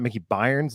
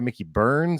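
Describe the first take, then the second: First: The surname sounds like 'byers', rhyming with 'fires'. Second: The surname sounds like 'burns', rhyming with 'turns'. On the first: The speaker calls it wrong. "It's not Mickey Byers, like I've been saying over and over" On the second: The speaker calls it right. "I've been saying it wrong, so sorry"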